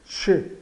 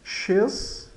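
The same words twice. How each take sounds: First: "che" with no consonant at the end; silent Z. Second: "X" read as "chez" with its ending heard; final consonant sounded. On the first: Teacher says final Z is mute, "che" without Z. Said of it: "é mudo, então ele fica che". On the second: Teacher reads the written word, "X" with final consonant sounded. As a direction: sound the last letter in "X", like "ches". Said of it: "o Z é final". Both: Shown as a demonstration.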